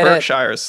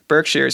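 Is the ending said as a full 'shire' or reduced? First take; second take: full shire; reduced. First: The ending is a full 'shire' like the Shire. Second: The ending is reduced, not a full 'shire'. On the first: The speaker calls it wrong. "I was calling it Berkshires, like Lord of the Rings" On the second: The speaker calls it right. "but no"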